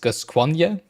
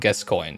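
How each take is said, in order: First: The name has a French pronunciation. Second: The name has an English pronunciation. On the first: "pronounce it French" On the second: "the native English speakers just pronounce it Gascoigne"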